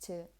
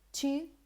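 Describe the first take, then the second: First: The word has a weak, reduced vowel. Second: The word has a full, clear vowel. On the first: "or maybe just to" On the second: "you say to"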